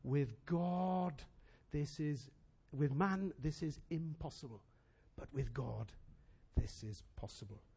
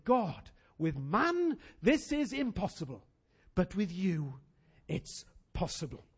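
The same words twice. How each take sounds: First: Much softer and lower, slow and tender; the same declaration, now hushed; soft Jesus quote. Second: The church declaring faith together; declared prayer. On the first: Retold or imitated. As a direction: say it gently to the rich young ruler. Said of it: "Jesus says to him". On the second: Acted. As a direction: proclaim it to God slowly. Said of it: "And we're gonna say".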